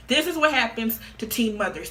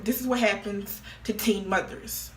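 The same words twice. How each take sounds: First: "what" hit hard and louder, falling at the end; emphatic restatement. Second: Said in the usual way. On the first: Shown as a demonstration. Mother lecturing viewers on teen moms, emphatic. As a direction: punch "what" like a verdict.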